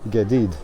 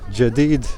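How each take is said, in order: First: It is said with a Cairo accent. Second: It is said with an Upper Egyptian or Gulf accent. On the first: "if you want to pronounce it as in Lower Egypt, in Cairo" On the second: "I'm pronouncing it as a person from Upper Egypt or from Gulf states"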